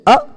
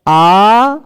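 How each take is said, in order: First: The vowel is held very briefly. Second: The vowel is held about twice as long. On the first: "ये ह्रस्व है" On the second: "आ दीर्घ हो गया"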